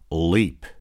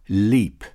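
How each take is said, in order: First: The L is dark and back. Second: The L is clear and front. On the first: "Dark L in initial position" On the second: "clear L"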